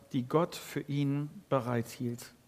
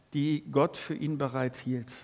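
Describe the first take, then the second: No difference in how they are said.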